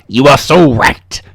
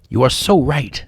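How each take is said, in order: First: It is read in a put-on villain voice. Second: It is read in his ordinary voice. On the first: The speaker calls it right. "this is the evil Power Master" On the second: The speaker calls it wrong. "I didn't realize I needed to change my voice"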